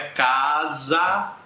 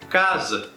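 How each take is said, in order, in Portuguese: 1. A vogal final é um a aberto, cheio. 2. A vogal final é um schwa reduzido. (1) "não é casa" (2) "é casa. Esse segundo A, ele tem um som reduzido"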